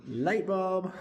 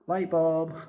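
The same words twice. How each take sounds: First: Much higher, playful repeat of the idea; eureka echo. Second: Higher, louder light-bulb exclamation; eureka moment. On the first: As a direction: echo it up high, tickled by the idea. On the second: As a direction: announce the bright idea like it just hit you. Sudden idea, exclaimed. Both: Acted.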